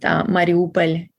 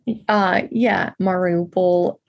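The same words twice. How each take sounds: First: The name is said with a Ukrainian pronunciation. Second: The name is said with an English pronunciation. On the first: "What people say in Mariupol" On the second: "I think is Anglicized"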